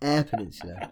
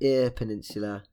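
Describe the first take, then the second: First: The first word sounds like 'air'. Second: The first word sounds like 'ear'. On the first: The speaker calls it right. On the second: The speaker calls it wrong.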